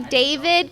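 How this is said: The name is pronounced the English way. "they don't say David because they're not English"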